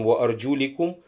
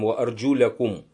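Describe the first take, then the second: First: The vowel after 'arjul' is an 'i'. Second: The vowel after 'arjul' is an 'a'. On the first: The feet are to be wiped. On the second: The feet are to be washed.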